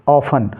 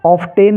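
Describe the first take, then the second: First: "ऑफन" with f straight into -an; silent T. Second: Faulty "ऑफ्टेन", of-TEN; wrongly voiced T. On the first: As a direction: say "ऑफन" without a t. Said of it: "टी इसमें silent". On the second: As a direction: sound out the T in "ऑफ्टेन". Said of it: "ऑफ्टेन नहीं". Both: Shown as a demonstration.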